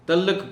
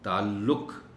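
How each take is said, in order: First: The ain sound at the start is dropped. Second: The ain sound at the start is present. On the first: The speaker calls it wrong. "इस लफ्ज़ की ऐन भी खा जाते हैं" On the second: The speaker calls it right. "पता चले कि आप ऐन बोल रहे हैं"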